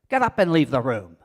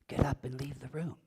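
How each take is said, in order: First: It is said loudly and forcefully. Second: It is said softly and quietly. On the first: "Or forcefully" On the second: "I could say it quietly"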